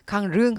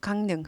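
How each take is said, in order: First: The second syllable starts with an l sound. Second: The second syllable starts with an n sound. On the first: The speaker calls it wrong. "강릉 하지 않고" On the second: The speaker calls it right. "N 같은 거"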